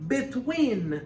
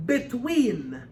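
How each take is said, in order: First: "Between" very slow and high; "Between" drawn out with a rising lift; stress on between. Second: "between" lifted and drawn out; "between" stressed higher and slower. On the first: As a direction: stretch out "Between" slowly. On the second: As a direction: lean on "between". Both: Shown as a demonstration. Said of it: "did you hear the stress on the word between".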